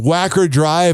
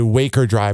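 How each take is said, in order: First: The first vowel sounds like the vowel in back. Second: The first vowel sounds like the vowel in bake. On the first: The speaker calls it right. "there's Wacker Drive" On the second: The speaker calls it wrong. "this radio D J called it Waker Drive"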